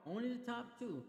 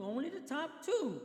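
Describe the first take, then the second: First: Said in the usual way. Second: "only the top two" high, loud and slow; stress on only the top two. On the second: Real, not acted. Stressing the rule being explained.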